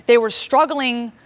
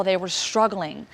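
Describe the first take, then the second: First: "They were struggling" louder, slower, pressed hard; weighty emphasis on "struggling"; stress on struggling. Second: Said in the usual way. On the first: Shown as a demonstration. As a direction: lean slowly into "struggling".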